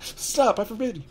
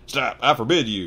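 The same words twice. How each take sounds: First: High shrieking panic; panicked yell. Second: Panicked yell. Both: A narrator's reading. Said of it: "yelled Uncle Vernon in a panic".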